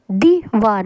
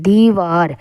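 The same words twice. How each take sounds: First: दीवार with a clipped short i; teacher showing the wrong short i. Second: दीवार with the i held long; teacher modelling the correct long i. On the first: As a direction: rush the i in दीवार. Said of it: "दीवार नहीं होता है". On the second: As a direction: take time over the i in दीवार. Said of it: "time लेकर बोलते हैं". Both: Shown as a demonstration.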